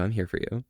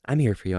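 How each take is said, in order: First: Quieter, gentle repeat; softer reassurance. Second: Said in the usual way. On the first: Real, not acted. Streamer reassuring Primal again, more gently. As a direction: drop the voice and mean it.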